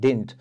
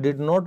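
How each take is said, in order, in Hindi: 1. यह एक छोटे, संकुचित शब्द की तरह बोला जाता है। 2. यह दो अलग-अलग पूरे शब्दों की तरह बोला जाता है। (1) "स्पोकन इंग्लिश में इसको बोला जाता है डिडंट" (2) "आप इसको डिड नॉट भी बोल सकते हैं"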